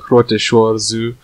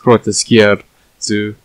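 First: The second word sounds like 'shore'. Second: The second word sounds like 'skier'. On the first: The speaker calls it wrong. "which is just wrong apparently" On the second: The speaker calls it right. "It's pronounced grote skier zoo"

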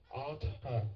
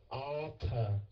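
The two takes are said the same way.

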